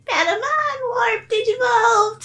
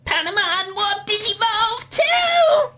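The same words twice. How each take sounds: First: High mimicked cartoon shout; tired Patamon imitation. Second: Very high drawn-out cartoon battle cry; Patamon. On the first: Co-host mimicking how that recorded take sounded, high off-key squeak. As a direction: imitate a slightly off squeaky battle cry, a notch below the real thing. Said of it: "Whereas that was like". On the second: Shown as a demonstration. Co-creator shows how the character should sound, very high squeaky voice. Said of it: "wasn't quite Patamon's voice".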